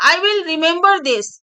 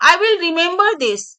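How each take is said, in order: Both takes have the same delivery.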